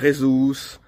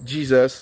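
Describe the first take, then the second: First: The name is pronounced the Spanish way. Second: The name is pronounced the English way. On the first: "les Espagnols disent" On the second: "les Anglais disent"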